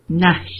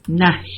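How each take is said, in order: No difference in how they are said.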